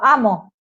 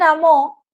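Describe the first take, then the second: First: The stress falls on the first syllable. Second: The stress falls on the last syllable. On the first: I love, in the present. "que es el presente del modo indicativo de la primera persona singular" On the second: Someone else loved, in the past. "Claramente está marcando una acción, pretérito perfecto simple"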